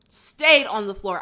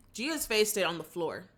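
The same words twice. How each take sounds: First: "Stayed" punched out loud; stress on STAYED. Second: Said in the usual way. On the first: Real, not acted. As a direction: hit the word "Stayed" hard, then ease off. Repeats for emphasis, louder.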